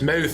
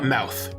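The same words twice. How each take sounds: First: The vowel is Scottish, placed at the front. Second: The vowel is non-Scottish, not placed forward. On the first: The speaker calls it right. "very here in the front of the mouth" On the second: The speaker calls it wrong. "not mouth"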